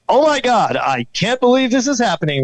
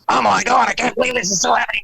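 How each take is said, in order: First: It is said as a TV newscaster. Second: It is said in a Beavis and Butthead voice.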